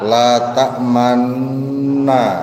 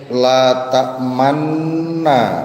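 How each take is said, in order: First: It is said with the lips rounded. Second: It is said plainly, without lip rounding. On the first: The speaker calls it right. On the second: The speaker calls it wrong.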